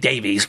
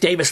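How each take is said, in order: First: The name is pronounced the American way. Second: The name is pronounced the English way. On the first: "we in America say Davies" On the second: "I'm pronouncing this Davis the English way"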